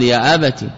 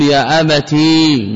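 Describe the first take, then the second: First: يا أبت with a short vowel on the ت; clipped final vowel in يا أبت, no long ي. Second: يا أبتي with a long, held "ee" ending; slow demo of the wrong form, stretching the ي of يا أبتي; long final ya. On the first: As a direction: say يا أبت without drawing out the ending. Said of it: "بفتح التاء وكسرها". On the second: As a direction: draw out the ي at the end of يا أبتي. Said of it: "ولا يجوز إثبات الياء". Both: Shown as a demonstration.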